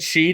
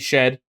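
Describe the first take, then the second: First: The name has a long 'ee' vowel. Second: The name has a short 'e' vowel. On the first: This is how the speaker has always said it. The speaker calls it wrong. "I've always said Sheed" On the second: This is probably the correct way. The speaker calls it right. "It might be Shed"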